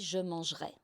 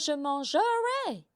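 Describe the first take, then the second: First: The middle e is reduced or dropped. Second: The middle e is said as a full vowel. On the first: The speaker calls it right. "quand il y a un E comme ça, on dit" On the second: The speaker calls it wrong. "on ne dit pas"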